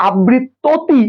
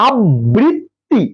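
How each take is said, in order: First: "আবৃত্ততি" with a vowel inside the cluster, ab-brit-to-ti; wrong pronunciation. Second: "আবৃত্তি" very slowly as ab-brit-ti, joined double t; correct pronunciation. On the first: Teacher asking if we ever said it so, false to-ti ending on "আবৃত্ততি". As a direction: insert an extra "to" in "আবৃত্ততি". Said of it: "আমরা কি কখনো বলছি". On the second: Teacher correcting the wrong form, slow ab-brit-ti for "আবৃত্তি". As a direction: break "আবৃত্তি" into three syllables without extra vowel. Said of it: "না, আমরা বলছি". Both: Shown as a demonstration.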